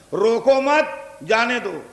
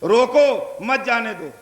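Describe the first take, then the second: First: روکو مت rising as one phrase, break, then جانے دو falling; pause after مت. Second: روکو on its own, break, then مت جانے دو as one falling phrase; pause after روکو. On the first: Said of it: "روکو مت کے بعد لگا دیجئے". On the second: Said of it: "روکو کے بعد لگا دیجئے". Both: Shown as a demonstration.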